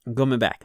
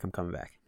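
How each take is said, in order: First: Louder, firm I'm coming back, with stress on coming; loud reassurance. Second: Much softer I'm coming back, fading out; quiet settling. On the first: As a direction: call it out firmly to yourself. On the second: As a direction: say it softly, almost to yourself. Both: Real, not acted. Calming himself, repeats phrase.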